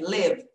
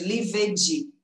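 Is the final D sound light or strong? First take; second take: light; strong. First: The final D is light and subtle. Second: The final D is strong and heavy. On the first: The speaker calls it right. "Bem leve" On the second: The speaker calls it wrong. "Ao invés de"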